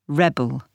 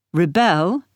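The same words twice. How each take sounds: First: "rebel" with the weight on RE; noun stress. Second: "Rebel" with the weight on BEL; verb stress. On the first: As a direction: stress on the first syllable, REbel. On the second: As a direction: stress on the second syllable, reBEL. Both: Shown as a demonstration. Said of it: "the stress can move".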